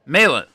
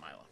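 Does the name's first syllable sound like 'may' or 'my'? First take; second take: may; my. First: The first syllable sounds like 'may'. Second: The first syllable sounds like 'my'. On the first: The speaker calls it right. "I just missed the A in my pronunciation" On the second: The speaker calls it wrong. "not Myla"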